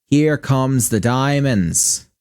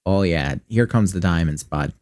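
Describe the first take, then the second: First: Put-on stretched-out, slow Midwestern accent savoring the diamonds. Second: Put-on lower-pitched, lazy Midwestern accent with a dropped-off bud; folksy Midwestern buddy talk; exaggerated Midwestern accent. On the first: Gamer gloating over diamond loot in a slow Midwestern accent. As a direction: draw it out like a proud Midwesterner. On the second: Gamer cheering loot drops in a Midwestern accent. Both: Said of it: "exaggerated Midwestern accent".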